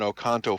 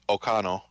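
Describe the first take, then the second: First: The T sound in the middle is pronounced. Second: The T sound in the middle is dropped. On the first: "technically Oconto" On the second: "just completely leave out the T"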